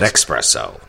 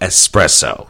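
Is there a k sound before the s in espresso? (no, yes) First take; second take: yes; no. First: The word begins with a ks sound, like x. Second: The word begins with an s sound, no k. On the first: The speaker calls it wrong. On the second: The speaker calls it right.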